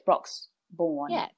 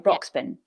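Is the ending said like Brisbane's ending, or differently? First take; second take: differently; Brisbane-like. First: The ending does not sound like Brisbane's. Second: The ending sounds like the end of Brisbane. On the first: The speaker calls it right. "but it's not. It's Broxbourne, I believe" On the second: The speaker calls it wrong. "If you say Brisbane, you'd say Broxbourne"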